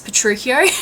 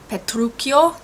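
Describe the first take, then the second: First: The name has an Australian-accented pronunciation. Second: The name has an Italian-style pronunciation. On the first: "I am using my very obvious Australian accent" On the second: "instead of using Petruchio"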